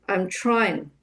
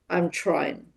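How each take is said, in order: First: I and am are merged into one syllable. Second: I and am are merged into one syllable.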